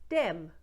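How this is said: It begins with a hard d sound. "Those th's get turned into d"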